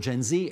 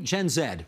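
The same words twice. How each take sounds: First: The letter Z is said the American way. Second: The letter Z is said the non-American way.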